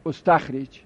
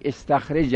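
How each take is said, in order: First: استخرج said ostakhrej, opening on o; ostakhrej, first vowel o in استخرج; passive with initial damma. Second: استخرج said estakhrej, opening on e; estakhrej, first vowel e in استخرج; imperative form. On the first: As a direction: say استخرج with a damma first and stop on the final consonant. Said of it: "ماضی مجهول هم اگر به ضم اول اکتفا کنیم". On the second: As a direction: say استخرج as a command form, with initial e. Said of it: "به امر خودش". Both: Shown as a demonstration.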